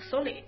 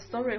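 First: The R is said as an L sound. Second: It is said with an English R sound.

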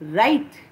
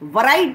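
First: The word starts with r, no w sound. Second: A w sound is heard before the r. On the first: The speaker calls it right. "W silent" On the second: The speaker calls it wrong. "वराइट मत बोलना उसको"

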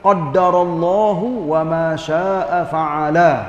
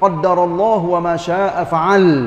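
First: The last word ends with a final vowel. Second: The last word ends without its final vowel.

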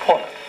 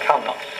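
First: It is pronounced the modern English way. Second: It is pronounced the ancient Latin way. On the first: "in English pronunciation would be called" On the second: "but was then called"

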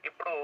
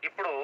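The two takes are said the same way.

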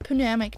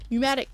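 First: The word starts with an audible P sound. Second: The word starts with no P sound. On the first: The speaker calls it wrong. "not pneumatic tubes" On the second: The speaker calls it right. "The P is silent"

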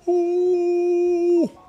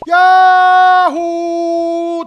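First: It is said quietly but projected far. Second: It is shouted loudly, as if far away.

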